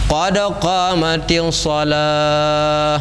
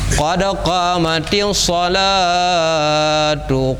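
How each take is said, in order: First: It stops on the last word, dropping its ending. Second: It keeps the final vowel and runs into the next phrase. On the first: "Mia wakaf"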